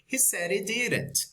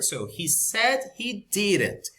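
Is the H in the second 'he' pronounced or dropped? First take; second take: dropped; pronounced. First: The H of the second 'he' drops. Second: Both H sounds are clearly pronounced. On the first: "in the connected speech" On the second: "we pronounce because it's the first word"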